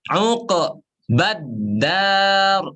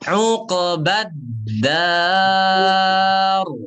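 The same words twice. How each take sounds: First: There is a break between the two words. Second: The two words run together without a break. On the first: The speaker calls it wrong. "diputus. ... Uqbad dar itu salah" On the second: The speaker calls it right. "langsung disambung membaca ba"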